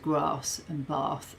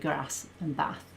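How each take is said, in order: First: Said with long vowels, like her mum. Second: Said with short Brummie vowels.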